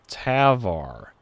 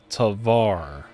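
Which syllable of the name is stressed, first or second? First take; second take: first; second. First: The stress is on the first syllable. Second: The stress is on the second syllable. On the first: "Emphasis on the first syllable" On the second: "emphasis on the second syllable"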